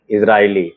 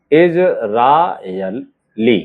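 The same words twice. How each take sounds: First: Said in the usual way. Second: Very slow Israeli, pauses between its parts; drawn-out dictation of Israeli; syllable by syllable. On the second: Shown as a demonstration. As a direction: sound out इज, रा, यल, ली separately. Word dictated in pieces.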